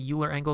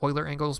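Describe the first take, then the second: First: Euler begins with a 'you' sound. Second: Euler begins with an 'oy' sound. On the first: "I say Euler angles" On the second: "instead of Euler angles"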